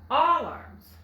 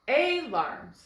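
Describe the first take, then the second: First: The first vowel is an ah sound. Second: The first vowel is a long ay sound. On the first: "let's try the ah sound, like in wallet" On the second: "the A is making the long sound, A"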